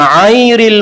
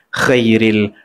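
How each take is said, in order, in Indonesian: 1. Bunyi gh diganti dengan hentian tenggorokan. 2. Bunyi pertama goyah antara kh dan gh. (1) "ain terus, memang tak keluar huruf tu" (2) "keluar tapi tak safi, tak jelas"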